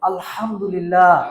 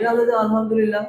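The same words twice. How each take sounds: First: The h is a breathy sound from the throat. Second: The h is a plain, light h sound. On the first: The speaker calls it right. "এরকম বলছি, এরকম শিখবো।" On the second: The speaker calls it wrong. "এরকম না।"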